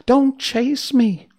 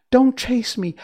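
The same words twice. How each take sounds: First: High, loud, slow frightened plea; frightened little voice, slower. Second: High, loud, frightened plea; frightened little voice. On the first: China princess pleading again as Dorothy chases her, frightened and slow. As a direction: stretch the plea out in fear. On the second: China princess crying out as Dorothy runs after her, frightened. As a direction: beg them not to chase you. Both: Acted. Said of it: "She had such a frightened little voice".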